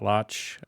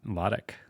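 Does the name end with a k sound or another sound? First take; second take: another sound; k sound. First: The name ends without a k sound. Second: The name ends with a k sound. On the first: The speaker calls it wrong. "it's not Lotch" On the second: The speaker calls it right. "it's L A H T I C K"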